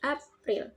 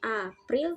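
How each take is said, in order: First: The word breaks after the p. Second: The word breaks before the p. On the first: The speaker calls it right. "tapi April" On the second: The speaker calls it wrong. "Jadi bukan April"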